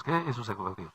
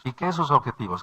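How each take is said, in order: First: Softer, dropped echo of the question; quieter repeat. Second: Said in the usual way. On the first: Real, not acted. Preacher echoes his own question to the congregation, softer. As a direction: say it again, softer and to yourself.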